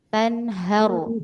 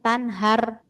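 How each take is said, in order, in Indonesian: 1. Bunyi r itu berat dan tebal. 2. Bunyi r itu ringan dan tipis. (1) "tapi tanharu ... ro tebal ya" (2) "bukan tanhar"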